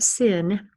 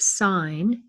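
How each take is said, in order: First: It is said like the word sin. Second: It is said like the word sign. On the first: The speaker calls it wrong. "that's not sin" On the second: The speaker calls it right. "pronounced sine"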